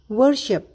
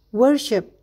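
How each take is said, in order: Both takes have the same delivery.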